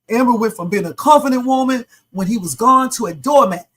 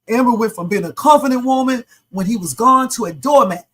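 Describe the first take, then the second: First: It is read dramatically, in a changed voice. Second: It is read dramatically, in a changed voice.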